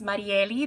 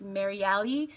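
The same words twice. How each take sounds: First: The r is a Spanish-style r. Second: The r is an English-style r. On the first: "That's how you say it in Spanish" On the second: "for the people that can't pronounce the Spanish R"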